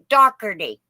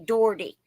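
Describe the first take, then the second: First: It is said the Pennsylvania way. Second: It is said the Indiana way.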